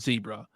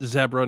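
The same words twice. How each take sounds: First: Zebra is pronounced a non-British way. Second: Zebra is pronounced the British way. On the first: The speaker calls it wrong. "not zebra" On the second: The speaker calls it right. "if you ever go to England, it's zebra. It's one hundred percent zebra"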